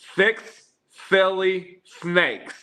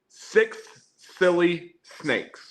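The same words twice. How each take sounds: First: The s sounds are lisped, like th. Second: The s sounds are clear, with no lisp. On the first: "Here's with the lisp" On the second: "This is straight up normal voice with the bad mic"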